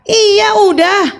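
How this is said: The reply sounds sharp and clearly angry. The listener is irritated at being asked again. "Dia tambah marah"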